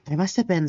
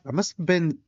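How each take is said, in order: First: It is said in a put-on character voice. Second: It is said in the speaker's natural voice. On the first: The speaker calls it right. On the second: The speaker calls it wrong.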